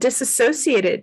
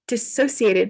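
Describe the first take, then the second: First: An extra syllable follows the first syllable. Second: No extra syllable follows the first syllable. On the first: The speaker calls it wrong. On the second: The speaker calls it right.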